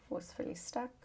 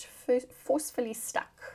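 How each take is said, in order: First: Said in the usual way. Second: "forcefully stuck" pushed out higher and louder; emphatic, forceful "forcefully stuck"; forceful emphasis. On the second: Shown as a demonstration. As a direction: punch "forcefully stuck" as if jamming it in place.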